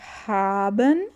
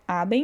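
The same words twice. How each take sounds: First: The first H sound is strong and breathy. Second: The first H sound is weak or silent. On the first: The speaker calls it right. "o H, ele tem um som forte" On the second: The speaker calls it wrong. "não fica haben"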